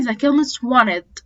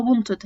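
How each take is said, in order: First: "wanted" said "wanned", no t; t dropped. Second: "wanted" said with a clear t; t pronounced. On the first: Teacher showing the silent t in "wanted". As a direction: drop the t in "wanted", slow. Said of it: "ناس كتير بتقولها wanted". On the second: Teacher showing the common version with t. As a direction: keep the t in "wanted". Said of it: "ناس كتير بتقولها". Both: Shown as a demonstration.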